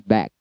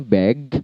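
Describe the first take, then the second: First: The word ends with a voiceless k sound. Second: The word ends with a voiced g sound. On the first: The speaker calls it wrong. "kadang dibaca back menggunakan k" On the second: The speaker calls it right. "Back seharusnya bag"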